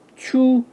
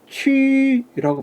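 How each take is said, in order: First: The vowel is a back, rounded 'oo' sound. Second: The vowel is a fronted, rounded 'ü' sound. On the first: The speaker calls it wrong. "영문식으로 보면... 그렇게 발음해서는 안 됩니다" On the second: The speaker calls it right. "취라고 발음해야죠"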